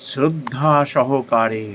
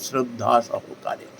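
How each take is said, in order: First: শ্রদ্ধা drawn out slowly, weighty; stress on শ্রদ্ধা. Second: শ্রদ্ধা repeated slow and quieter; softer stress on শ্রদ্ধা. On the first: Preacher stressing শ্রদ্ধা to devotees, slow and weighty. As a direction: lean slowly on শ্রদ্ধা সহকারে. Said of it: "condition এরম বলে দিয়েছেন". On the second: Preacher repeating শ্রদ্ধা to listeners, soft and slow. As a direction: lay শ্রদ্ধা down gently, slow. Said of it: "এই হলো আসল কথা". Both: Shown as a demonstration.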